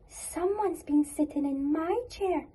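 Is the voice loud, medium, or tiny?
medium. It is said in a medium-sized voice.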